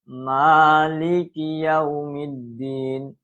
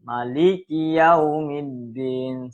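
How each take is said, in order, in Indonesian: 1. Vokal setelah m itu panjang. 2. Vokal setelah m itu pendek. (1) "Mimnya itu dengan harokat panjang" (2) "maliki dengan maknya pendek"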